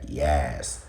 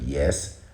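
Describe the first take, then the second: First: It is said in a New York accent. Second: It is said in a neutral accent. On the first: The speaker calls it wrong. "She'll be like yes" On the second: The speaker calls it right. "instead of yes"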